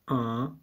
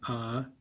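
First: The vowel is nasal, air through the nose. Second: The vowel is plain, without nasal sound. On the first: "These are your nasal vowels. you go ah" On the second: "instead of saying ah"

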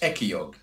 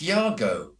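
First: The name has a hard k sound after the first vowel. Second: The name has no k sound after the first vowel. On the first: The speaker calls it wrong. "I don't understand why everybody's called him Ekiog" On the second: The speaker calls it right. "a Nigerian friend of mine said, it's Iago"

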